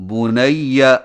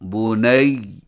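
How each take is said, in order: First: The word ends with a vowel after the doubled y. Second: The word stops on a held doubled y. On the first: The reading continues without a stop. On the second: The reader stops on this word.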